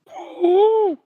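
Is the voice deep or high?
high. It is said in a high voice.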